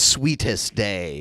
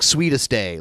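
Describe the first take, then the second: First: Each sound of the words is said clearly. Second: The words are said loosely, with sounds run together. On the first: This is the phonetically correct way. "if you want to pronounce it like phonetically correct" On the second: This is how people commonly say it. "People would say it like sweetest day, like that"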